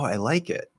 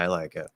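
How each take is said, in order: First: The voice sounds genuinely interested and warm. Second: The voice sounds flat and uninterested. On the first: The speaker really likes it. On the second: The speaker does not really like it.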